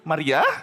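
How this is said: It is said as a rising question.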